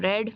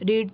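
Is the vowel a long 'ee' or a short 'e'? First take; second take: short e; long ee. First: The vowel is a short 'e' sound. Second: The vowel is a long 'ee' sound. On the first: It is the past tense form. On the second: It is the present tense form.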